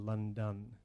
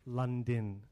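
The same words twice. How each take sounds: First: The second syllable sounds like 'don'. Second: The second syllable sounds like 'din'.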